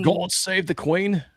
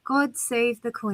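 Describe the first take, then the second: First: Higher, slow attempt at a British accent; hammed-up British, questioning; badly faked British accent. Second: Slow British accent, softly drawn out; measured British lilt. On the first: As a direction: drag it out in a clumsy British accent. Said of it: "That's, that's horrible". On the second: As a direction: stretch each word in a British accent. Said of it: "You're getting very good". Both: Shown as a demonstration.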